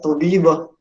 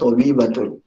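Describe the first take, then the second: First: The word ends in a short -ah sound. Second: The word ends with the full -atun ending. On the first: "kita sukunkan saya tobibah" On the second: "saya sebutkan tobibatun"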